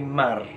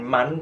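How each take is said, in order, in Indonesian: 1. Bunyi n menyatu dengan r, jadi berakhir mar. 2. Kata ini diakhiri bunyi n yang jelas. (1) "nunnya harus masuk uh, ke dalam huruf ro" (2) "bukan man"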